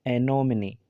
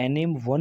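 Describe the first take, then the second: First: "एनोमनी" as e-no-mi-ni; final e sounded as ee in "एनोमनी"; correct pronunciation. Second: "एनिम वन" as a-nim-wun; naive spelling reading. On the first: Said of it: "वो सही है". ("एनोमनी" के अंत में ई की आवाज़) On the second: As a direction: misread "एनिम वन" with silent final e. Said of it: "नहीं पढ़ा जाएगा". ("एनिम वन", आख़िर में वन वाला ग़लत उच्चारण) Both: Shown as a demonstration.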